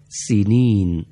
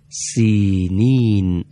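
First: سینین with the first i clipped short, at a normal pace; short kasra. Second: سینین with the first i stretched long, said very slowly; long kasra. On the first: Teacher showing the class the shortened vowel, quick short kasra. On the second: Teacher recalling the earlier word for the class, long drawn-out kasra. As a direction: draw out the first vowel of سینین. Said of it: "اونجا گفتیم چی؟". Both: Shown as a demonstration.

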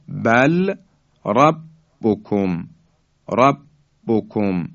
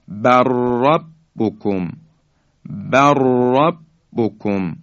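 First: Slow بل ربکم with clear l and a break; unmerged lam. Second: Slow بر ربکم joined as "barrabbukum", r strongly rolled; doubled ra. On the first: Teacher gives the next example unmerged, lam sounded separately. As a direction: say "bal", pause, then "rabbukum" for بل ربکم. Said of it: "لام ساکن". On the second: Teacher demonstrating for listeners how lam becomes doubled ra. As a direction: trill one long r through بر ربکم, no l. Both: Shown as a demonstration.

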